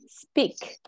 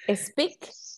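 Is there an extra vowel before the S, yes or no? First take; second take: no; yes. First: No extra vowel sound comes before the S. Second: An extra vowel sound comes before the S. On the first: The speaker calls it right. "Or just without the E?" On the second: The speaker calls it wrong. "Do you have an E here, like a speak? Or just without the E?"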